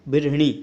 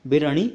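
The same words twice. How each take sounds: First: बिरहिणी as bir-hi-nee; correct form. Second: बिरहणी as bir-ha-nee, with "a" in the middle; no "i" after the h in बिरहणी; wrong form. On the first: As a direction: put an "i" after the h in बिरहिणी. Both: Shown as a demonstration. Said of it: "को कैसे लिखते हैं".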